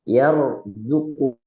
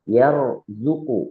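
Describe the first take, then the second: Both takes have the same delivery.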